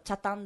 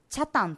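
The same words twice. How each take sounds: First: The pitch stays level across the word. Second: The pitch rises and falls within the word. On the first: This is how locals say it. The speaker calls it right. "ちゃんとチャタンだよ" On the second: This is how people from outside Okinawa say it. The speaker calls it wrong. "変な訛り方するわけ"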